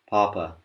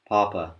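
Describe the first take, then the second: First: The p is loose, like an American English speaker. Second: The same.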